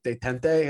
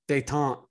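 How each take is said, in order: First: The name is pronounced in an Italian-sounding way. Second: The name is pronounced without an Italian-sounding style. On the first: The speaker calls it wrong. "I thought it was like maybe Italian. So I kept pronouncing it" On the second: The speaker calls it right. "that makes so much sense"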